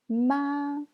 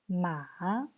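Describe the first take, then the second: First: It is said with the first tone. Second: It is said with the third tone. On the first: "C'est le premier ton" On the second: "C'est le troisième ton. Ça, c'est très clair parce que ça descend et ça remonte après"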